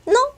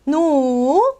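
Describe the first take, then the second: First: The word is said briefly and lightly. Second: The vowel is stretched out long. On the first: A light, casual no. "짧게 얘기할 때 no" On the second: An emphatic refusal. "그냥 늘려주시면 돼요"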